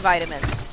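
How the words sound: It is said in an American accent. "Americans say vitamins"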